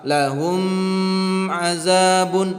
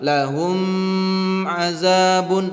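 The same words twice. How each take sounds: First: The m is held with a nasal hum. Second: The m is held with a nasal hum.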